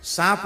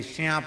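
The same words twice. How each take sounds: First: Said in the usual way. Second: "श्यांप" opening on a shya glide; dialect pronunciation. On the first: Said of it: "सांप नहीं बोलेंगे". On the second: Shown as a demonstration. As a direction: softly say "श्यांप", sh-y replacing plain s. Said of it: "श्यांप बोलेंगे".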